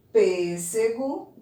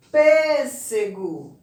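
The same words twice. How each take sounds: First: Said in the usual way. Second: Pêssego slowly, with a loud, drawn-out PÊS; stress on first syllable. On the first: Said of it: "nós temos primeiro banana". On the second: Shown as a demonstration. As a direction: punch and hold the PÊS in Pêssego. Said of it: "No pês".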